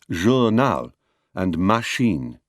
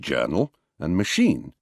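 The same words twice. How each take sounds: First: Syllables in each word carry equal stress. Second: One syllable in each word is pushed harder. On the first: This is the French pronunciation. "The French give them their characteristic equal stress" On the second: This is the English pronunciation. "We pronounce them journal and machine"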